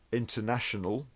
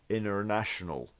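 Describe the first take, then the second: First: It is said in a standard British accent. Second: It is said in a General American accent.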